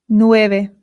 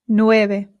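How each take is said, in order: Both takes have the same delivery.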